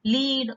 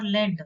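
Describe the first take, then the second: First: "lead" pronounced leed; lead as in leader. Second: Led with a short E; "led" pronounced like the metal; led, short vowel. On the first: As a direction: lead with a long EE. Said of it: "So one who is leading". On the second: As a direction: say "led" to rhyme with bed. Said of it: "or led". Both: Shown as a demonstration.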